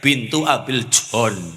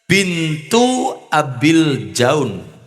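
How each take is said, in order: First: The last word has a plain 'o' vowel. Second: The last word has an 'au' diphthong.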